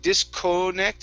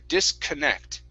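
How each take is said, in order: First: The middle vowel is a full o sound. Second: The middle vowel is a weak schwa sound. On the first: The speaker calls it wrong. "So you're saying co" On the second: The speaker calls it right. "So we're going to use the schwa here"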